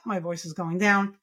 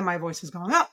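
First: "down" dropped at the end; falling intonation. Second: "up" lifted at the end; rising intonation. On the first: Therapist showing the intonation pattern, voice falling on "down". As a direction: let the voice sink on "down". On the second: Therapist showing the intonation pattern, voice rising on "up". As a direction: let the voice climb on "up". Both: Shown as a demonstration.

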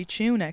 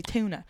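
First: "tuna" as CHOO-nuh; Irish pronunciation. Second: "tuna" as TOO-nuh; American pronunciation. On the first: Irish comic showing what would ruin the joke, Irish pronunciation. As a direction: say "tuna" the Irish way, opening with a CH sound. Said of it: "I cannot say tuna". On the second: Irish comic keeping the joke clear for Americans, American pronunciation. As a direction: say "tuna" with a clean T, no CH. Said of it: "I have to say tuna". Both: Shown as a demonstration.

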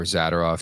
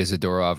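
First: Zadorov said the second of two ways; alternative pronunciation. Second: Zadorov said the first of two ways; first pronunciation option. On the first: Host offers two readings of Zadorov, alternative pronunciation. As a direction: give Zadorov as the other option. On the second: Host offers two readings of Zadorov, first pronunciation. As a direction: give Zadorov as one option. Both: Shown as a demonstration. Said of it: "Take your pick".

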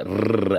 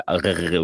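First: "rrr" trilled on the tongue tip; rolled R. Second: "rrr" made in the throat, German or French style; guttural R. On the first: Norwegian showing how Oslo says R, "rrr" rolled. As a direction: roll the sound in "rrr". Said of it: "they roll their R's". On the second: Norwegian showing how Bergen says R, "rrr" guttural. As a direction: gargle "rrr" at the back of the throat. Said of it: "German and French type of R's". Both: Shown as a demonstration.

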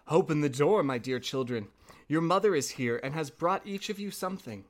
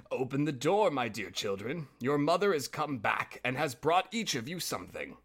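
First: A hint of sweetened mother voice from the wolf; softened-voice wolf. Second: Lightly voiced wolf calling at the door; a hint of a wolf pretending to be mother; hoarse wolf posing as mother. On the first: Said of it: "to make his voice soft". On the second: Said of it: "by the hoarse voice".

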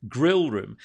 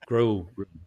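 First: "grill room" with a smiling, clear short i in grill; smiling pronunciation. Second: "Grill room" in heavy Scots, vowel darkened towards "grull"; thick Scottish accent. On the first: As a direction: smile through the word "grill". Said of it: "You have to smile when you say grill". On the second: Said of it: "when I said it with my Scottish accent". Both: Shown as a demonstration.

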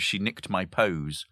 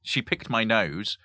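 First: "She nicked my pose" with the first sounds swapped, said slowly; spoonerism. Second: Said in the usual way. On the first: Shown as a demonstration. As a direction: swap the first sounds and savour it.

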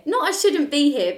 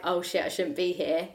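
First: NOT punched high and loud; stress on NOT. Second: Said in the usual way. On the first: Shown as a demonstration. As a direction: hit the word Not, higher and louder. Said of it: "but I was like". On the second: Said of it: "made me feel like".

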